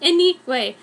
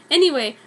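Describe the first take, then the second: No difference in how they are said.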